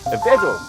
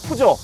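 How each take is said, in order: First: The first vowel is an 'eh' sound. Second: The first vowel is an 'oo' sound. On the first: This is how it is said in Europe. The speaker calls it right. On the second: This is how it is said locally. The speaker calls it wrong.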